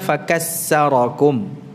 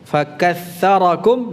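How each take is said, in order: First: The middle consonant is an 's' sound. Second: The middle consonant is a 'th' sound. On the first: The speaker calls it wrong. "tha yang dibaca dengan sin ya, dalam bacaan Al-Qur'an tidak dibenarkan" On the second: The speaker calls it right. "harus dibaca dulu dengan tha"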